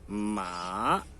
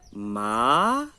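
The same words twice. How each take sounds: First: The pitch moves down and up again. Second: The pitch rises from middle to high. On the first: "é uma entonação que sobe e que desce" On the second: "é uma entonação crescente"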